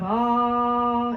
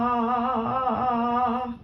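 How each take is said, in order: First: The voice is held steady. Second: The voice shakes with a tremor.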